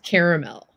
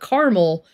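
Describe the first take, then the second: First: The word is said with three syllables. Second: The word is said with two syllables. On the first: The speaker calls it right. "I insist that is caramel" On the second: The speaker calls it wrong. "It's not caramel. There's another A, and it's behind the R"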